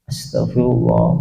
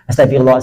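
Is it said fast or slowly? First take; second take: slowly; fast. First: It is said slowly and calmly. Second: It is said fast and hurriedly.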